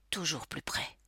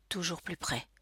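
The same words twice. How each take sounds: First: "toujours plus près" breathed as an unvoiced whisper. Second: Softer, creeping suspense on "toujours plus près"; hushed. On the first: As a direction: whisper it as the danger closes in. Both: A narrator's reading.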